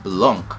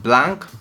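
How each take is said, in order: First: The word is said with French pronunciation. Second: The word is said without French pronunciation. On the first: "it's French, that it should be pronounced Blanc" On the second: "I initially called it Blanc, being African"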